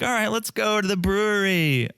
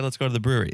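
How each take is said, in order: First: High, hammed-up party-girl enthusiasm; mock party cheer. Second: Said in the usual way. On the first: Mother and daughter heading out, mock party cheer. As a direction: fake a carefree call to go out drinking. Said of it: "It's not gonna be like". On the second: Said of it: "Okay, she said".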